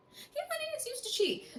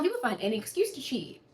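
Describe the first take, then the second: First: Very high, quick and soft; high-pitched aside. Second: Said in the usual way. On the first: Real, not acted. Dishing on the cheating ex, high-pitched aside. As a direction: squeak it out fast and small. Mock repeat about cheating ex.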